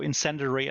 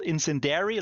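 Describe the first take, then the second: First: It has no j sound and no dairy ending. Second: Its ending sounds like the word dairy. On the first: The speaker calls it right. "I think, is the way you pronounce this" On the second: The speaker calls it wrong. "It's also not called incendiary like the milk"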